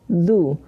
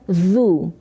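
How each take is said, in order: First: The consonant is a soft th-like sound. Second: The consonant is a plain buzzing z sound. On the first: The speaker calls it right. "Du itu sama dengan du tetapi ada z-nya sedikit" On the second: The speaker calls it wrong. "bukan zu"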